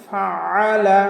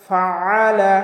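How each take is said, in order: First: A pressed throat consonant is heard mid-word. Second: A pressed throat consonant is heard mid-word.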